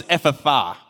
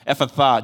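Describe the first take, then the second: First: Ephphatha said carefully as EF-fa-thar; saying the word Ephphatha. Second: Ephphatha repeated as EF-fa-thar, falling; repeating Ephphatha. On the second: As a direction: say Ephphatha again, settling it. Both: Shown as a demonstration. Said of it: "the word is Ephphatha".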